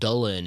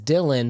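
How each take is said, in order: First: The name is said with a Welsh pronunciation. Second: The name is said with an English pronunciation. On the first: "it's pronounced Dulin in Welsh" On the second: "he preferred Dylan pronunciation"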